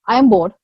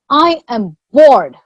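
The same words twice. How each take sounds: First: It sounds simply bored. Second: It sounds bored and frustrated.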